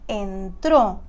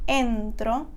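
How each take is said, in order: First: The stress is on the last syllable. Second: The stress is on the first syllable. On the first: He entered, in the past. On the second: I enter, in the present.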